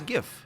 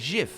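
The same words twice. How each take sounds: First: The word begins with a hard G sound. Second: The word begins with a soft J sound. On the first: "And I don't say that, I say GIF" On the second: "you always say J, J, G. That would be GIF"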